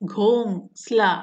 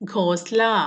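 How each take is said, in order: First: The vowel before the s is nasalized. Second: The vowel before the s is plain. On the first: The speaker calls it right. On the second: The speaker calls it wrong.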